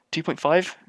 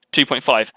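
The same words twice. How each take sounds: First: TWO POINT FIVE higher, rising at the end; questioning echo. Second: Said in the usual way. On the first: Acted. Doctor querying a patient's answer, "Two point five?" rising in disbelief.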